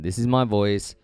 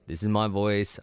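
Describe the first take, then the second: First: The voice lacks a bump in the upper mids. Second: The voice has a bump in the upper mids. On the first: "the S M fifty-seven is lacking that mid-range bump in the higher frequencies" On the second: "this is my voice on an S M seven B"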